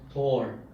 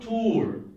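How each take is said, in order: First: The vowel sounds like 'or', as in tore. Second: The vowel is a long 'oo' sound. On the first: The speaker calls it wrong. "the lady from a language center in Mongolia said Tor" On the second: The speaker calls it right. "The oo sound, tour. It's a long oo"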